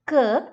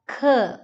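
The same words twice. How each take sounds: First: The k is released without a puff of air. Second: The k is released with a puff of air. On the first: The speaker calls it wrong. "It's not k" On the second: The speaker calls it right. "A little puff of air should come out of the mouth"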